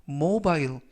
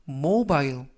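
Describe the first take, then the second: No difference in how they are said.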